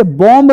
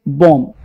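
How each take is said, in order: First: बॉम्ब with the b sounded; बॉम्ब said with a final b; wrong reading. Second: बॉम्ब said as bom, b silent; बॉम्ब with no final b, lower. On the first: (बॉम्ब में बी बोलकर) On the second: (बॉम्ब को बम बोलो) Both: Shown as a demonstration. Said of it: "इसे बॉम्ब नहीं पढ़ेंगे".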